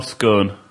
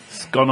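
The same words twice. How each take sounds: First: "scone" rhyming with "bone"; long o in scone. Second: "Scone" rhyming with "gone"; short o in scone. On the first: Friend offers the two ways of saying it, long-o "scone". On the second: Friend offers the two ways of saying it, short-o "Scone". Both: Shown as a demonstration.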